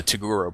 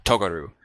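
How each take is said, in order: First: "Toguro" said the American way, tuh-GOO-roh; American dub pronunciation. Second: "Togaru" said the proper way, the careful Japanese-style name; proper Japanese pronunciation. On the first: Fan savoring the dub's American pronunciation of Toguro. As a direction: relish "Toguro" like the old Adult Swim dub. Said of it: "I love saying the Toguro brothers". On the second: Fan showing the proper Japanese way to say the name. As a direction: say "Togaru" as the more correct Japanese reading. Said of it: "they'd wanna say it more proper". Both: Shown as a demonstration.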